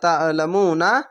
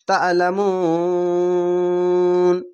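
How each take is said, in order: First: The word ends with a short 'a' vowel. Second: The word ends on 'n' with a long 'oo'. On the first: The reciter continues reading without stopping. "নুন যাবার না" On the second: The reciter stops at this word. "এখানে থামবেন তার জন্য"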